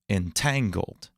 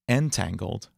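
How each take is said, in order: First: The stress is on the middle syllable. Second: The stress is off the middle syllable. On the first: The speaker calls it right. "x slash x, the stress on the middle syllable" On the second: The speaker calls it wrong. "You wouldn't say"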